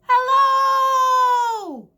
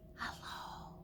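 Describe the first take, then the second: First: It is said very loudly. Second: It is said very quietly.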